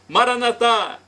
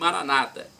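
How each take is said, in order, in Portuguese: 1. A tônica está na última sílaba. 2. A tônica está na penúltima sílaba. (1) "nós colocamos a tônica na última sílaba" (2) "com a tônica na penúltima sílaba"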